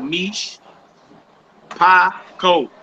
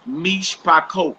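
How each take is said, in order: First: "Mish ... Pakot" broken into separate syllables. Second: Said in the usual way. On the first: Shown as a demonstration. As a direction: pause after "Mish", then set out "Pakot" syllable by syllable. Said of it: "you separate them with dashes". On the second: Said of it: "that's a three syllable word".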